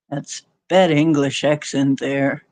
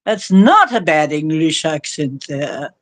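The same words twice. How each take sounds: First: Said in the usual way. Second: NOT punched with a jump in pitch; stress on NOT. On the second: Real, not acted. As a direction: correct it by hitting the word NOT. Corrects a misread listener comment.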